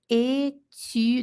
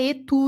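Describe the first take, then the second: First: The u is an i sound with rounded lips. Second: The u is a plain back rounded vowel. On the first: The speaker calls it right. "É o I com boca de U" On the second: The speaker calls it wrong. "não é etu, não, hein?"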